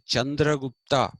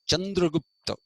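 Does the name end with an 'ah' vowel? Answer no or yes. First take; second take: yes; no. First: The name ends with a final 'ah' vowel. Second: The name ends on a consonant, without a vowel. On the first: The speaker calls it right. "They don't say Chandragupta" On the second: The speaker calls it wrong. "that's how they pronounce Chandragupta"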